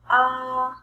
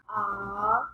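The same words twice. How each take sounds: First: The pitch stays high and level. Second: The pitch rises from middle to high.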